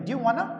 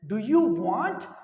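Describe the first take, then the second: First: The words are blended quickly into two syllables. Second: Each word is said fully and separately.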